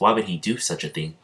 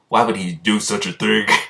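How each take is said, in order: First: It is said in an ordinary narrating voice. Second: It is said in a put-on character voice.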